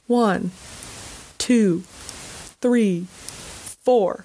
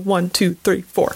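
First: The counting is slower and drawn out. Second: The counting is fairly fast.

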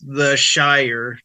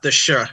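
First: The word is said in full as 'shire'. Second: The word is cut short to 'sh'. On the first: The speaker calls it right. "it was pronounced the Shire" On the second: The speaker calls it wrong. "not the sh"

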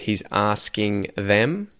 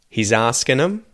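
First: The ending is a full ing sound. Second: The ending is reduced to an n sound. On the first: "instead of" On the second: "an N sound instead of an ing sound"

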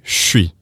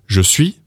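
First: It is squeezed into one quick syllable, 'shwee'. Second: Both syllables are said fully with a J sound. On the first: "we say chui. But it's much quicker" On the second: "instead of saying je suis"

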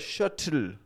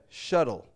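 First: The middle T is a strong, sharp T. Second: The middle T is a quick, soft flap. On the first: The speaker calls it wrong. "It's not the shuttle" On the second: The speaker calls it right. "but the shuttle"

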